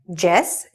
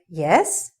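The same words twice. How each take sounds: First: The word is said with a Spanish-style pronunciation. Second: The word is said with a standard English pronunciation. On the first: The speaker calls it wrong. "if you're a Spanish speaker and you say yes" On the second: The speaker calls it right. "instead of yes"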